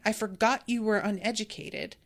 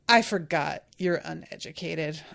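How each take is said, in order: First: It is said in a plain, helpful tone. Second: It is said in a tone dripping with judgment. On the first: The speaker is simply offering help. "He's just being helpful" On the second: The speaker is looking down on the listener. "it could drip with judgment"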